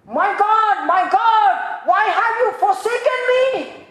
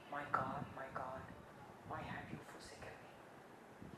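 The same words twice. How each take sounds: First: Shouted high and loud in anguish; anguished cry. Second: Soft, low, fading to a breathy whisper; hushed anguished cry. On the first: Preacher voicing Jesus on the cross, loud anguished shout. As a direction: cry out to God in agony. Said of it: "what does he cry out". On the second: Preacher voicing Jesus dying, soft whispered cry. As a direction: let the cry die away, slow and hushed. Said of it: "he cried out with a loud voice". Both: Acted.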